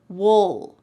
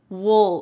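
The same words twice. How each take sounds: First: The word is reduced, sounding like 'wool'. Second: The word is reduced, sounding like 'wool'.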